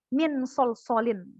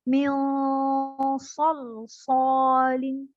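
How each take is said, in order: First: The n is pronounced fully and distinctly. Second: The n blurs into the following s sound. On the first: The speaker calls it wrong. "jadi bukan min sol solin. Salah" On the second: The speaker calls it right. "Misal kayak"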